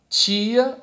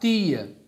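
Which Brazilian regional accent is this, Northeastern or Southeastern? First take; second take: Southeastern; Northeastern. First: It is said with a Southeastern Brazilian accent. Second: It is said with a Northeastern Brazilian accent. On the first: The speaker is from the Southeast. "se você é do Sudeste" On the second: The speaker is from the Northeast. "ou se você é do Nordeste"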